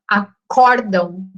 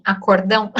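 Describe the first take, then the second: First: Acórdão with stress on the second syllable, cór; correct stress. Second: Acordão with stress on the final dão; wrong stress. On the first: Teacher tells the class the correct acórdão, stressing cór. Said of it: "falar em acórdão". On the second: Teacher shows the class the common wrong acordão, stressed at the end. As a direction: stress the last syllable of acordão. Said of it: "e não em acordão". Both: Shown as a demonstration.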